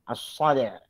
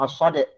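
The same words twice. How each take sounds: First: It ends with a throaty ain sound. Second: It ends with a glottal stop sound. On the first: The speaker calls it right. "ain tengah tenggorokan" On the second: The speaker calls it wrong. "Bukan as-sade"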